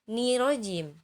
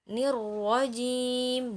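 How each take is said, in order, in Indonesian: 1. Ni-nya dipanjangkan sebelum r. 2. Ni-nya pendek dan langsung masuk ke r. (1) "bukan nirojim" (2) "Jadi ninya nggak panjang ya"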